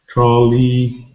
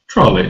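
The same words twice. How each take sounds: First: Both syllables get equal stress. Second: The stress is on the first syllable. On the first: The speaker calls it wrong. "we don't have equal stress where each syllable is the same" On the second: The speaker calls it right. "the stress is on the first syllable"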